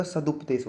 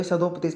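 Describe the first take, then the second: First: सदुपदेश with short "u" after d; correct pronunciation. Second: सदोपदेश with an "o" after d; wrong pronunciation. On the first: Teacher corrects it for students, careful pronunciation. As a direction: say सदुपदेश as "sa-dup-desh". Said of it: "सदुपदेश होता है". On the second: Teacher shows students the error, mispronounced. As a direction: say सदोपदेश as "sa-dop-desh". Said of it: "सदोपदेश नहीं होता". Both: Shown as a demonstration.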